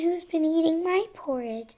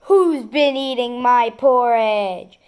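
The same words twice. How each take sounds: First: A soft, medium-pitched voice. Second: A big, deep, growling voice. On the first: "In her soft middle voice" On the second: "In his great big bear voice he growled"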